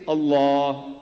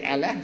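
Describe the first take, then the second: First: Allah with long broad back "aw", held; correct Allah. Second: Allah with short front "a" sounds, "Al-la"; mispronounced Allah. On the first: Preacher shows what to say instead, Allah drawn out broad. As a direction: say Allah slowly as "al-LAAWH". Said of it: "say Allah". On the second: Preacher shows what not to say, Allah with front vowels. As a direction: say Allah thin and short, rhyming with "fella". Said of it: "but don't say Allah". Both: Shown as a demonstration.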